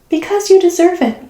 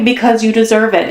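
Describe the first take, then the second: First: Lilting, much higher commercial voice; ad slogan. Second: Said in the usual way. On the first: Retold or imitated. Tarot reader quotes the eighties L'Oreal slogan, high and sing-song. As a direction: sell it like an eighties beauty ad.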